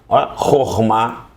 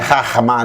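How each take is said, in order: First: The first vowel is an "o" sound. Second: The first vowel is an "a" sound. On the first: The speaker calls it right. "tem som de O" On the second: The speaker calls it wrong. "porque não é Rahma, não, não"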